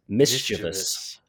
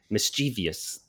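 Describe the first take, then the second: First: The middle syllable is said the standard way. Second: The middle syllable is said the popular variant way. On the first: The speaker calls it right. "It is mischievous" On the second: The speaker calls it wrong. "It should be mischievous, but it's not"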